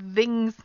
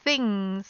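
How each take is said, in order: First: The th is voiced, with throat vibration. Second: The th is unvoiced, with only air. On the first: The speaker calls it wrong. "that's the voice sound" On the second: The speaker calls it right. "the unvoiced sound"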